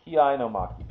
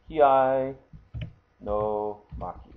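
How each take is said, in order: First: Said in the usual way. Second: Kiai held out, pause, then a slow no maki; slow, separated repeat. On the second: Shown as a demonstration. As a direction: sound out the term slowly, part by part. Repeats term slowly, word by word.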